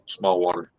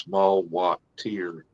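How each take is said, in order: First: The ending sounds like the plain word 'water'. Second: The ending is split into 'watt tier'. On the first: This is how the locals usually say it. The speaker calls it wrong. "we say it small water" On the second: This is claimed to be the proper pronunciation. The speaker calls it right. "It's actually pronounced small watt tier"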